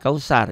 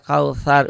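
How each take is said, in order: First: The middle consonant is a plain s sound. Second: The middle consonant is a th sound. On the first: The speaker calls it wrong. "Jangan kausar ya" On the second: The speaker calls it right. "kautsar ujung lidah"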